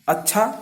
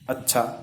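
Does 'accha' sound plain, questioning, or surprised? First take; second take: surprised; plain. First: It is said with surprise. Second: It is said as a plain statement. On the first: "दूसरा विस्मयार्थ अच्छा" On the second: "पहला अच्छा"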